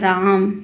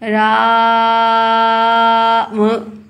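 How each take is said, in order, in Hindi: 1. शब्द बिना रुके, सहजता से बोला गया है। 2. शब्द के बीच में एक रुकावट से यह टूटता है।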